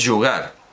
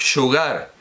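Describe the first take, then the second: First: It begins with a y sound, Toledo style. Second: It begins with a j sound.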